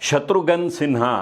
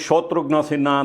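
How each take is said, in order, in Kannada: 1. ಈ ಹೆಸರನ್ನು ಪ್ರಮಾಣಿತ ಉಚ್ಚಾರಣೆಯಲ್ಲಿ ಹೇಳಲಾಗಿದೆ. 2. ಈ ಹೆಸರನ್ನು ಬಂಗಾಳಿ ಶೈಲಿಯ ಉಚ್ಚಾರಣೆಯಲ್ಲಿ ಹೇಳಲಾಗಿದೆ. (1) "ತಮ್ಮ ಹೆಸರನ್ನು ಶತ್ರುಘ್ನ ಸಿನ್ಹಾ ಅಂತ ಮಾಡ್ಕೋತಾರೆ" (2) "ಬಂಗಾಳದವರು ಶೋತ್ರುಘ್ನ ಸಿನ್ಹಾ ಅಂತಾರೆ"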